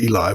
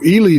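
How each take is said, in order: First: The name ends with an 'eye' sound. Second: The name ends with an 'ee' sound. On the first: The speaker calls it wrong. "I've been pronouncing it Eli" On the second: The speaker calls it right. "somebody that's from there tells me it's Ely"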